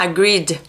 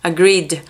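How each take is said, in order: The two takes are said the same way.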